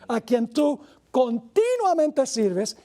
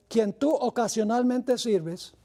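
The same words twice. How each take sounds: First: Continuamente stressed slowly and higher; slow, emphatic correction of the verse; corrected reading. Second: Slow, mock-serious misreading; playful wrong reading; joking misquote. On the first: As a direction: lean on continuamente as the right word. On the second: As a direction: deliberately slip in the wrong word ocasionalmente, drawn out slowly. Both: Shown as a demonstration. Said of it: "eso no dice".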